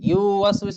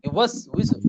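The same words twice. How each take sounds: First: The first vowel is stretched out long. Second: The first vowel is kept short. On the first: The speaker calls it wrong. "ইউয়াসউইসু না কিন্তু" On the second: The speaker calls it right. "ইউতে কিন্তু টান নাই।"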